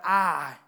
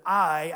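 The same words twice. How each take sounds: First: "I" flattened to a country "ah"; Southern "ah" vowel. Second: Said in the usual way. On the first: Shown as a demonstration. Preacher catches his own accent, "I" said as "ah". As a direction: say "I" as one open vowel, "ah", without the glide. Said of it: "when I'm saying words that I instead of I". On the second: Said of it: "instead of I".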